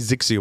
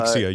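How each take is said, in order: First: The name starts with a z sound. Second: The name starts with a vowel sound. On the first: The speaker calls it wrong. "I always say Zixia when I see that for some reason" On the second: The speaker calls it right. "It is Ixia. You are correct"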